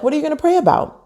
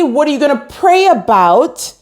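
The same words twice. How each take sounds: First: It sounds sincere and genuinely curious. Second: It sounds challenging and skeptical.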